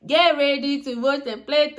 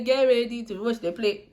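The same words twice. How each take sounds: First: Mock gloating. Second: Said in the usual way. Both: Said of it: "And inside my heart".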